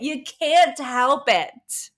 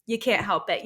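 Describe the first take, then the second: First: CAN'T stretched out slow and higher; drawn-out emphasis. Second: Said in the usual way. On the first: Real, not acted. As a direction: lean hard and long on "can't help it". Repeats it for emphasis.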